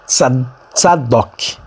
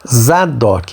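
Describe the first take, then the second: First: The name begins with a ts sound. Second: The name begins with a plain z sound. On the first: This is the original Hebrew form. The speaker calls it right. "a pronúncia correta" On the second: This is the Portuguese-adapted form. The speaker calls it wrong. "nós falamos Zadok"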